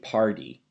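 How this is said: The T is flapped like a D, American accent. "an American will say party"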